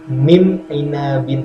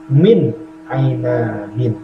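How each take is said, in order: First: The n is changed into a nasal m sound. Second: The n is pronounced clearly and distinctly. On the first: The speaker calls it wrong. "dibaca dengung menjadi mim ainabin, salah" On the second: The speaker calls it right. "Yang betul dibaca izhar jelas"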